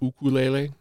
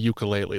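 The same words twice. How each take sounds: First: It is said the Hawaiian way. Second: It is said the common English way.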